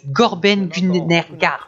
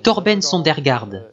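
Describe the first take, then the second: First: The name begins with a G sound instead. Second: The name begins with a clear T sound. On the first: The speaker calls it wrong. "Mais je disais" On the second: The speaker calls it right. "mon nom est"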